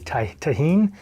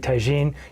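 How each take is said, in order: First: The middle consonant is an H sound. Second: The middle consonant is a J sound. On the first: The speaker calls it right. "it's pronounced technically tahine" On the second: The speaker calls it wrong. "I did say tagine"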